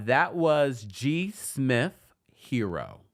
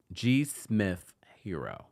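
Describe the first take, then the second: First: Slowly drawn-out song name. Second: Said in the usual way. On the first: Shown as a demonstration. Song name drawn out, then repeated.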